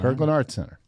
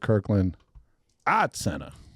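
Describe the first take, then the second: First: It is said without a Boston accent. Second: It is said in a Boston accent. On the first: This is how the speaker says it now. "It's it's gone" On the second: This is how the speaker used to say it. "I would pronounce that as"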